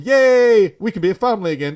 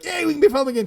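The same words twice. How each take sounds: First: It is said in a flat, subdued tone. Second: It is said in a lively, excited tone.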